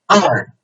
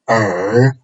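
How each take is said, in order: First: It is said with the fourth tone, mouth wider. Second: It is said with the third tone. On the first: "the fourth tone" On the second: "third tone"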